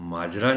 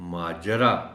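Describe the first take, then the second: First: The 'j' has no vowel after it. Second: The 'j' is followed by a short 'a'. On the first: The speaker calls it wrong. "माजरा नहीं" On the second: The speaker calls it right. "जीम के ऊपर ज़बर का ख्याल रखा जाना चाहिए"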